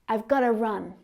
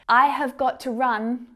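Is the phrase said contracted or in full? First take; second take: contracted; full. First: The words are reduced and run together. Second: Every word is said fully and separately. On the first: The speaker calls it right. "how to say this phrase naturally with me" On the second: The speaker calls it wrong. "It would sound a little bit stiff, like way too stiff"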